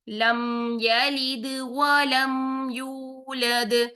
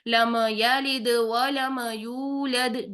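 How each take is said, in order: First: It is recited slowly and carefully. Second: It is recited quickly and carelessly. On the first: The speaker calls it right. "हम तसल्ली से तरतीब के साथ पढ़ेंगे" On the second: The speaker calls it wrong. "बेध्यानी में पढ़ते हैं और जल्दी जल्दी में पढ़ते हैं"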